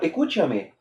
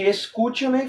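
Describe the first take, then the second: First: The s sound is dropped, said quickly. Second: The s sound is fully pronounced. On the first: "tira a letra S principalmente, fala mais rápido assim" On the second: "em vez de escúchame"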